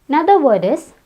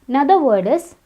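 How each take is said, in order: Both takes have the same delivery.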